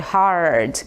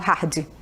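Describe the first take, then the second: First: The R sound is pulled strongly. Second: The R sound is weak or missing. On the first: The speaker calls it right. "Puxem esse R na hora de falar" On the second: The speaker calls it wrong. "ali eu não falo hard"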